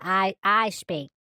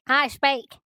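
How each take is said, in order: First: It is said slowly, with hesitation. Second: It is said quickly, without hesitation.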